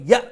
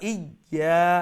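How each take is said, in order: First: The final vowel is cut short with a catch. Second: The final vowel is drawn out long. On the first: The speaker calls it wrong. "ইয়া এইরকম বলবেন না, ইয়া যদি বলি তা ইয়া হামজা হয়ে যাবে" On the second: The speaker calls it right. "সেই জবরের সাউন্ডটা যেটি অরিজিনালি খাটো ছিল সেটাকে লম্বা দীর্ঘায়িত করে ফেলবে"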